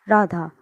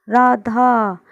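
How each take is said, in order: First: Said in the usual way. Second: Louder call to someone far away, Radha held long. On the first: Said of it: "प्लुत स्वरों का प्रयोग किसी को पुकारने में". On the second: Shown as a demonstration. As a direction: call Radha across a distance. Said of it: "दूर है कोई व्यक्ति और उसको हम आवाज़ लगा रहे हैं". (दूर खड़े व्यक्ति को राधा कहकर लंबी पुकार)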